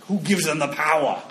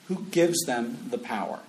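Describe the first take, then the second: First: It is spoken in an imitated Austrian action-hero accent. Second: It is spoken in the speaker's own normal accent.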